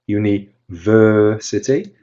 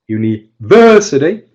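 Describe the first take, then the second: First: The stressed syllable is stretched out longer. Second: The stressed syllable is said noticeably louder. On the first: "that it's longer" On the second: "that it's louder"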